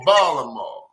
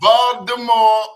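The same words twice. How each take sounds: First: The middle consonant is dropped entirely. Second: The middle consonant is a D sound. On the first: "or there's going to be no consonant at all" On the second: "T's either going to be a D"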